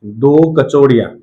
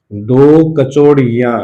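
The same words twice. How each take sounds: First: Said in the usual way. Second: "दो कचौड़ियां" said slowly, leaning on दो; slow emphatic repeat. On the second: Shown as a demonstration. Teacher repeating the phrase slowly for students to note. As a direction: drag out दो कचौड़ियां for dictation. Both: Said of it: "उसने".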